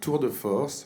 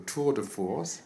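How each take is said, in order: First: It is said with a French pronunciation. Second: It is said with an American pronunciation. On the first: "as we say in French" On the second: "with an American accent"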